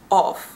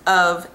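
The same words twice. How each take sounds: First: It is said with a Dutch-like vowel. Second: It is said with an American vowel.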